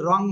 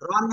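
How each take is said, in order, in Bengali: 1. শব্দাংশটি অনুনাসিক ng ধ্বনি দিয়ে শেষ হয়। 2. শব্দাংশটি সাধারণ n ধ্বনি দিয়ে শেষ হয়। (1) "নিশ্চিত রং হয়।" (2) "রন হয় নাকি রং হয়?"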